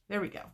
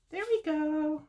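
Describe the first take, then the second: First: Said in the usual way. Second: High, drawn-out singsong; playful singsong. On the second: Real, not acted. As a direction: sing it out high in playful triumph. Playful repeat after a small success.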